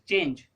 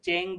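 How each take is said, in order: First: The word ends with a j sound. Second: The word ends with a hard g. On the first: The speaker calls it right. "ज" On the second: The speaker calls it wrong. "ना कि चेंग पढ़ेंगे"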